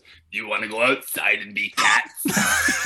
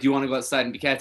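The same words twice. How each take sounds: First: It is said in a deep, raspy smoker's voice. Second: It is said in a light, childlike voice.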